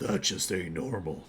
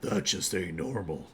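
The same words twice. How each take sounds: First: Spoken in a deep, growling voice. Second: The same.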